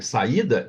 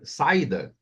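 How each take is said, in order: First: The 'a' and 'i' are separate syllables. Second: The 'a' and 'i' merge into one syllable. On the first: The speaker calls it right. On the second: The speaker calls it wrong.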